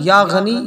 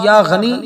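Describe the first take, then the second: No difference in how they are said.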